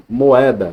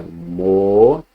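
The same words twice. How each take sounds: First: Said in the usual way. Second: "moeda" slowly split as mo-e-da; "moeda" in three parts, mo, e, da; syllable by syllable. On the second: Shown as a demonstration. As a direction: leave a gap after each syllable of "moeda". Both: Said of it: "Duas vogais em sílabas diferentes".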